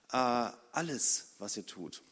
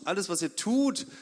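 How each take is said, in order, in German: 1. Die Betonung liegt auf dem Wort alles. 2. Die Betonung liegt auf dem Wort tut.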